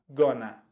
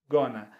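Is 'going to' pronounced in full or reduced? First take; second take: reduced; reduced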